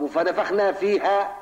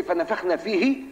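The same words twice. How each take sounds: First: فيها said slowly with a rising tune; stress on فيها. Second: فيه said slowly with a rising tune; stress on فيه. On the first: Teacher correcting his student toward فيها, slow and pointed. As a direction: hit فيها to correct the reading. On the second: Teacher pointing his student to فيه, slow with a rise. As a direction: lean on فيه as the wrong reading. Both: Shown as a demonstration. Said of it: "طب "وفنفخنا فيها".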